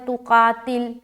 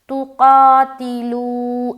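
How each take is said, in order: First: The word stops on the final consonant 'l'. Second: The word ends on a long 'oo' vowel. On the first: The speaker calls it wrong. "लाम का पेश हटाकर यहाँ पर सुकून लगा देंगे और पढ़ेंगे तुकातिल, तो गलत है" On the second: The speaker calls it right. "वा मद्दा करते हुए स्टॉप करेंगे"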